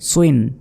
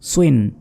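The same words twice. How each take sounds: Both takes have the same delivery.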